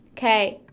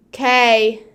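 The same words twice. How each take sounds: First: Said in the usual way. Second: Sudden loud "Okay". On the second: Real, not acted. Streamer being loud for no reason, loud. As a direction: blurt "Okay" out at volume. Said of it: "I just like to be loud".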